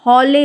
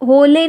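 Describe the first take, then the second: First: हौले with the open औ sound; correct vowel. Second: होले with a plain ओ; wrong vowel. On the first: Teacher models the right हौले to the class. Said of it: "हौले होता है". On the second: Teacher shows the wrong vowel to students. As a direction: say होले with a pure ओ sound. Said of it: "नहीं होता है". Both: Shown as a demonstration.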